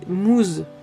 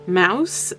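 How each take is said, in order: First: The vowel sounds like 'oo', read French-style. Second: The vowel sounds like 'ow', read English-style. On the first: The speaker calls it wrong. "sinon, ça serait, ça voudrait Moose" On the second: The speaker calls it right. "je vais prononcer son nom à l'anglaise"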